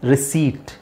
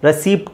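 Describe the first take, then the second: First: The p sound is left out. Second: The p sound is clearly pronounced. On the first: The speaker calls it right. "ಪಿ silent ಆಗಿರುತ್ತೆ" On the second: The speaker calls it wrong. "ರೆಸಿಪ್ಟ್ ಅಲ್ಲ"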